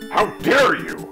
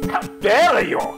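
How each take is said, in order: First: It is said in the speaker's plain accent. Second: It is said with a French accent.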